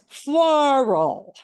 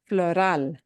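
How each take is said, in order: First: The stress is on the first syllable. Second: The stress is on the last syllable. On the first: "In English" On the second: "that means we punch the end"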